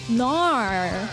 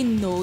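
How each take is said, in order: First: The word is said with an Australian accent. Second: The word is said with a plain accent. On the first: "nar is actually an accent from Australia" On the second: "when you say no"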